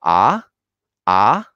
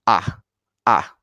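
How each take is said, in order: First: "Ah" rising steeply; happy tone two. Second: Short falling "Ah"; angry tone four. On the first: Teacher contrasts tone two for learners, happy rising "Ah". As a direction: let "Ah" climb like a happy question. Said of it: "it sounds more happy". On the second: Teacher contrasts tone four for learners, angry falling "Ah". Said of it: "tone four is the angry tone". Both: Shown as a demonstration.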